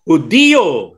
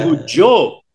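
First: The word is said with three syllables. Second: The word is said with two syllables. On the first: The speaker calls it right. "Hudiyo, hindi Hudyo" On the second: The speaker calls it wrong. "hindi Hudyo"

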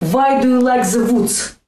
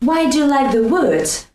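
First: Russian accent, with V sounds instead of W. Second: Plain English accent, with English W sounds.

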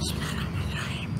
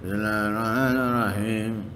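First: It is said in a hissing, breathy voice. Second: It is said with a strained, pushing voice.

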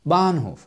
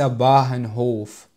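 First: The middle h is silent, with a long vowel. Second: The middle h is clearly pronounced aloud. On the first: The speaker calls it right. "حرف الهاء لا ينطق" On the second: The speaker calls it wrong. "وليس باهنهوف، فهذا غير صحيح"

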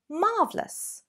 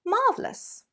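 First: The word is said with two syllables. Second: The word is said with two syllables.

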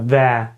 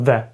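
First: The vowel is full and clearly heard. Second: The vowel is reduced and barely heard. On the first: The speaker calls it wrong. "ми не кажемо «де»" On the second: The speaker calls it right. "просто «де»"

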